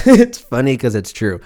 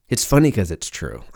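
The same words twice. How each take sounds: First: Laughing it out, a little louder; real laugh through the line. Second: Said in the usual way. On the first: Real, not acted. Repeating the joke to the listener, laughing. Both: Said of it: "It's funny 'cause it's true".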